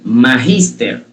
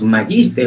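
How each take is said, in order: First: The g is a throaty Spanish j sound. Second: The g is a soft English j sound. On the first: The speaker calls it right. "la G se debe pronunciar como una J" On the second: The speaker calls it wrong. "porque así se pronuncia la letra G en inglés"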